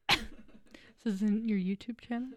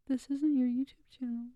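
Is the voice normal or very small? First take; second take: normal; very small. First: It is said in a normal-sized voice. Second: It is said in a tiny, small voice.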